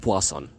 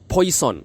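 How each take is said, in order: First: It is said with a French-style pronunciation. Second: It is said like the English word poison. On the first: The speaker calls it right. "say his name correctly" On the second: The speaker calls it wrong. "that's how it's written"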